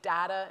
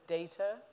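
First: The word is pronounced the American way. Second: The word is pronounced the British way. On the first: This is the form used in America. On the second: This is the form used elsewhere.

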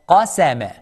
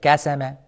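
First: The word begins with a heavy, deep q sound. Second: The word begins with a plain k sound. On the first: The speaker calls it right. "Make sure you pronounce qa heavy" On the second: The speaker calls it wrong. "Do not change the qaf into kaf like kasama"

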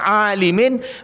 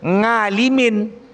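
First: The word begins directly with a vowel. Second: The word begins with an added ng sound. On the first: The speaker calls it right. "lidah orang Jawa ni tak bisa mengatakan alimin" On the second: The speaker calls it wrong. "Gara-gara lidah orang Jawa"

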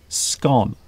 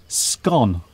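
First: The word is said with the common pronunciation. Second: The same.

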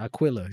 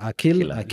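First: The name is said with an American pronunciation. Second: The name is said with an Arabic pronunciation. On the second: "like Akila"

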